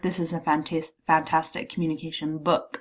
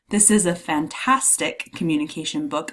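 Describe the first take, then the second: First: The stress falls on the word book. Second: The stress falls on the word fantastic. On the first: The object itself is highlighted. "I'm putting the emphasis on the book" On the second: The quality of the book is highlighted. "I'm emphasizing the adjective, the descriptor"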